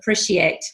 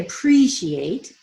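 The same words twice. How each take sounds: First: The vowel in 'pre' is a short i. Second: The vowel in 'pre' is a long ee. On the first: The speaker calls it wrong. "your long E sounds got shortened to I" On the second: The speaker calls it right. "it should be appreciate"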